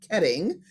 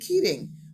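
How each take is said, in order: First: The first vowel is short, like 'bet'. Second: The first vowel is long, like 'beet'. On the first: The speaker calls it wrong. "I messed up with Dan Ketting" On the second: The speaker calls it right. "rather than Keating"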